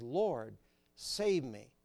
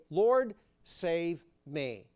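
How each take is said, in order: First: Said in the usual way. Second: Slow drawn-out plea; slowly pleading Lord save me; slow cry. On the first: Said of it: "he calls out and says". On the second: A narrator's reading. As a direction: stretch out Peter's cry for help. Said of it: "cried, saying".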